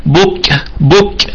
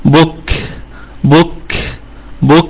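First: بك with the كاف hit hard and popped, no air after it. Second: بك with a small, soft puff of air after the كاف; light airy k. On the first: Teacher showing students the wrong, popped كاف in بك. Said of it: "لا نقول مثلًا". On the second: Teacher modelling the correct airy كاف in بك. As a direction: let just a little air follow the كاف in بك. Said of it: "فنقول". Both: Shown as a demonstration.

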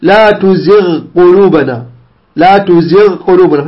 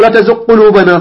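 First: Slower تزغ with the gh held before قلوبنا; measured, unmerged تزغ قلوبنا; correct clear ghayn. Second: Gh of تزغ swallowed by the q of قلوبنا; faulty merged reading without ghayn in تزغ; wrong assimilation. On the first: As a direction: linger on the gh of تزغ, then a clean q. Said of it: "خطأ". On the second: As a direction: demonstrate "tuzuq-qulubana" for تزغ قلوبنا. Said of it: "لا تقل". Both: Shown as a demonstration.

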